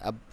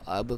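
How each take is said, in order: First: The final b stops flat without any bounce. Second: The final b is released with an echoing bounce. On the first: The speaker calls it wrong. "नहीं पढ़ना" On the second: The speaker calls it right. "करके पढ़ना है"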